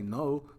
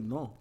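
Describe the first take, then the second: First: The word is said with an English vowel. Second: The word is said with a Spanish vowel. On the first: "They don't say no" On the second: "pronounce no like they're speaking Spanish"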